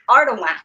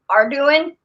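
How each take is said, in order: First: The name is said with a French pronunciation. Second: The name is said like English words. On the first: This is the family's own pronunciation. The speaker calls it right. "it's actually Cajun French. It's Ardoin" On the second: Others mispronounced it. The speaker calls it wrong. "they would say are doing"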